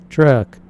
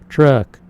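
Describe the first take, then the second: Both takes have the same delivery.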